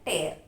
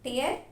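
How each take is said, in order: First: The word rhymes with air. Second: The word rhymes with ear. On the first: It means ripping. "టేర్ అంటే చించడం" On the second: It means crying. "టియర్ అంటే ఏడుపు"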